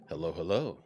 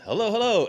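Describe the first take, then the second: First: The pitch goes down, then up. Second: The pitch goes up, then down.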